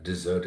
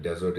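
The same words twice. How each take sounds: First: DESSERT stressed on the ZERT; dessert as in food, weak first syllable, strong second. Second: DESERT stressed on the DEZ; desert as in barren land, strong first syllable. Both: Shown as a demonstration. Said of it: "and also the form of word".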